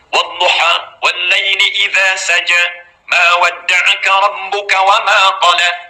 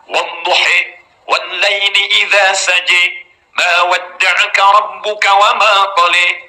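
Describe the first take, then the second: First: The long final vowels are open 'ah' sounds. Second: The long final vowels are shifted toward 'eh' sounds. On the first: "Jadi bisa kita baca wadduha pakai a" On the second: "dia baca pakai e"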